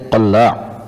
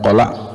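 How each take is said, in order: First: The L sound is held long and doubled. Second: The L sound is short and single. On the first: The speaker calls it right. "mentasydidkan huruf lam" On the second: The speaker calls it wrong. "bukan qala'"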